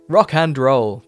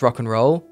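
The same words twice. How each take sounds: First: The word 'and' is said in full. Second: The word 'and' is shortened to 'n'. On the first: The speaker calls it wrong. "Doesn't sound cool" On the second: The speaker calls it right. "Rock and roll sounds rock and roll"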